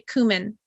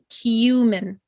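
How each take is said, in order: First: The first syllable does not sound like 'you'. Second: The first syllable sounds like the word 'you'. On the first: The speaker calls it wrong. "We don't say cumin" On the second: The speaker calls it right. "it's very similar to saying the word you"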